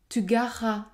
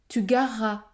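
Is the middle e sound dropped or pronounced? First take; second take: dropped; dropped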